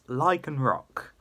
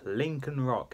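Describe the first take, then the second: First: The first syllable sounds like 'lie'. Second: The first syllable sounds like 'link'. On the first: The speaker calls it right. "It's Lycan Rock" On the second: The speaker calls it wrong. "stuff I said wrong"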